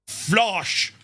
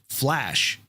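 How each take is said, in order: First: It is said with a German accent. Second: It is said with an American accent. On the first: The speaker is a foe. "flash would be flosh" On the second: The speaker is a friend. "if it's an American accent"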